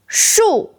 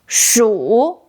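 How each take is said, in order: First: The syllable is said with a falling tone. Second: The syllable is said with a dipping tone. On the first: It means tree. "Fourth tone, 树 means tree" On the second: It means mouse. "Third tone, 鼠 means mouse"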